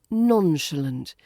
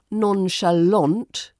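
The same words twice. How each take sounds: First: It is said lightly, stressing the first syllable. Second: It is said dramatically, in a French style. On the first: The speaker calls it right. "It's light and breezy" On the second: The speaker calls it wrong. "like a dramatic French film villain"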